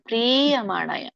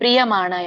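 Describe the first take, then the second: First: The long vowel is drawn out. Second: The long vowel is cut short. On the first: The speaker calls it right. "ದೀರ್ಘ ಇರುತ್ತಲ್ಲ ಅವಾಗ ಎಳಿಬೇಕು" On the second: The speaker calls it wrong. "ಅಲ್ಲ"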